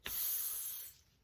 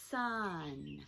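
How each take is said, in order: First: "sun" split into long hissed s, then held "un"; sounded out. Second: "sun" as one smooth, lengthened word; blended together. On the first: Teacher using arm to count sounds, segmented. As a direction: break "sun" apart sound by sound. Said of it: "if I were saying the word sun". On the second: Teacher putting sounds together, blended smoothly. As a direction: join the sounds of "sun" without a break. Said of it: "then I could put them together". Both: Shown as a demonstration.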